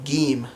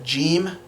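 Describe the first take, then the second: First: "gim" with a hard g; Egyptian Arabic pronunciation. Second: "jim" as in jam; standard Arabic pronunciation. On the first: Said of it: "it will become gim". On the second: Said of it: "So you have jim". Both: Shown as a demonstration.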